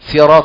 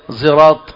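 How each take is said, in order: First: The word begins with a plain s sound. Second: The word begins with a z-like sound. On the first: "سين" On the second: "فهو حرف صاد لكن النطق هكذا"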